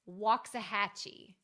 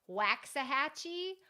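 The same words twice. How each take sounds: First: The name is said simply and smoothly. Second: The name is said with exaggerated, effortful sounds. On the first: The speaker calls it right. "the next one is Waxahachie" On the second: The speaker calls it wrong. "try to pronounce it a lot harder than it is"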